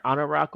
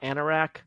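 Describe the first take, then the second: First: "Anorak" with broad A as in father; alternate pronunciation. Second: "Anorak" with flat A as in cat; alternate pronunciation. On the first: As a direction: say Anorak as AH-nuh-rock. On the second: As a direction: say Anorak as AN-er-ack. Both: Shown as a demonstration. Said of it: "how to pronounce the name".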